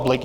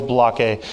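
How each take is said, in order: First: Said in the usual way. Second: "Balake" said as three syllables, buh-LAH-kay; mispronounced name. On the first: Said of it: "the famous substitute teacher skit". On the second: Shown as a demonstration. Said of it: "formally named Balake".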